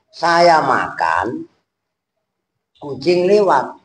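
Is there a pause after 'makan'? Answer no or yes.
yes. There is a pause after 'makan'. The speaker is eating while a cat passes by. The speaker calls it right. "Maksudnya kan saya lagi makan, ada kucing lewat"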